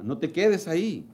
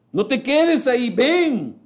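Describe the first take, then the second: First: Said in the usual way. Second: Urgent call. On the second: Acted. Preacher urging listeners.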